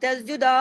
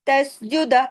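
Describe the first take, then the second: First: The final vowel is stretched into a long aa. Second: The final vowel is short, one beat. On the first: The speaker calls it wrong. "आ की आवाज यहाँ भी तसजुदा ऐसे नहीं करना" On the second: The speaker calls it right. "एक हरकत है, लंबा नहीं कर देना"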